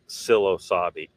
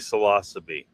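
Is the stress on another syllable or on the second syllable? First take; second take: another syllable; second syllable. First: The stress falls on another syllable, not lo. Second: The stress falls on the second syllable, lo. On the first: The speaker calls it wrong. "not psilocybe" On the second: The speaker calls it right. "It's supposed to be psilocybe"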